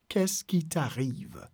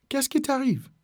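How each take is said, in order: First: "Qu'est-ce qui t'arrive" slow and softer, syllable by syllable; slow syllable breakdown. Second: Said in the usual way. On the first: Shown as a demonstration. Teacher modelling French for learners, slow syllable breakdown. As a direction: stretch it out gently for learners.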